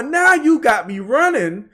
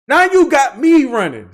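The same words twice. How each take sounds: First: Slow with now stressed; slow and drawn out. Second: Louder with stress on you; louder, punched. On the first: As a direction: draw it out slowly. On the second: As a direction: hit you hard, louder. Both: Real, not acted.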